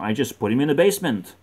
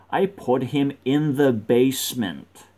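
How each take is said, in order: First: Quick, matter-of-fact run through the sentence; quick statement. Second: "I put him in the basement" slowed down, each word weighted; slow emphasis. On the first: Storyteller giving up on helping him, quick statement. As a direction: toss it out rapidly in one breath. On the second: Correcting river to basement, slow emphatic restatement. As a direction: spell out "in the basement" slowly and firmly. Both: Real, not acted.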